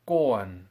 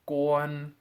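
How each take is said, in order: First: The pitch falls from high to lower. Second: The pitch stays high and level. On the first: "then as a double one tone" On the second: "first as a one tone"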